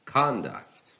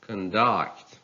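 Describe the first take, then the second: First: "conduct" as CON-duct; stress on first syllable. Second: "Conduct" as con-DUCT; stress on second syllable. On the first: Teacher reading a noun, "conduct" stressed on CON. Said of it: "stress on the first syllable". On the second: Teacher reading a verb, "Conduct" stressed on DUCT. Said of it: "stress falls on the second syllable". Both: Shown as a demonstration.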